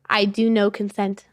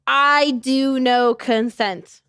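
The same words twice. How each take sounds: First: It is said quickly and casually. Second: It is said slowly with careful enunciation.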